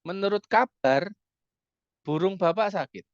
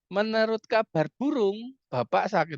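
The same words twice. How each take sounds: First: There is a pause right after 'kabar'. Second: There is a pause right after 'burung'. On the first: According to the news, the father's bird is sick. "yang sakit burungnya bapak" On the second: According to rumor, the father is sick. "yang sakit bapaknya"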